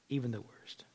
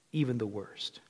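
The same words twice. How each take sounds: First: Whisper. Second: Soft. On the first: Preacher ending on grace to sinners, whispered. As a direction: breathe even the worst without voice. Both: Real, not acted.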